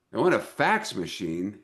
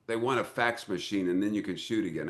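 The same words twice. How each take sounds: First: Puzzled repeat, rising at the end; incredulous question. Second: Said in the usual way. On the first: Retold or imitated. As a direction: echo the demand in mock disbelief. Retold disbelief at the demand.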